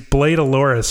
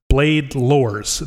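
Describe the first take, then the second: First: The second word sounds Portuguese-like, with extra syllables. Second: The second word sounds like the English word 'lores'. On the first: The speaker calls it wrong. "Not this Portuguese Blade Aloris or whatever y'all came up with" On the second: The speaker calls it right. "the lores, the myths, the legends of the blade"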